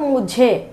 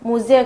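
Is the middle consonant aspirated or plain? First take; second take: aspirated; plain. First: The middle consonant is aspirated, with a breath. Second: The middle consonant is plain, without a breath. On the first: The speaker calls it right. "ఒత్తు ఝా" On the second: The speaker calls it wrong. "ముజే కాదు"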